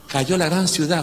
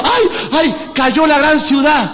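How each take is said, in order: First: Said in the usual way. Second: Higher, slow wailing lament. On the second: Retold or imitated. Pastor voicing mourners of the great city, lamenting. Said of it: "Y dijo".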